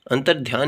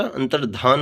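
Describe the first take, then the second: First: अंतर्ध्यान with dhy in the last syllable; y-glide form. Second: अंतर्धान with plain dh before aan; no y glide. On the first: Teacher repeating the faulty form, अंतर्ध्यान with y glide. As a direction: say अंतर्ध्यान as "antar-dhyaan". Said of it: "नहीं होता". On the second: Teacher repeating the correction, अंतर्धान without y. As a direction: say अंतर्धान as "antar-dhaan". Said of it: "होता है". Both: Shown as a demonstration.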